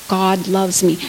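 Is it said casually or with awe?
casually. It is said in a flat, casual way.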